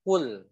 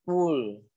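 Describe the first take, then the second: First: "kul" with the tongue open from the start, lam light; correct open kul. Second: "kul" drawn out slowly with the lam closed; wrong closed kul. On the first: Teacher showing students the right open lam, model demo. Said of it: "tapi mulainya". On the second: Teacher warning students against the closed lam, slow wrong demo. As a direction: draw out "kul" the wrong way, shut and heavy. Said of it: "jangan kul". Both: Shown as a demonstration.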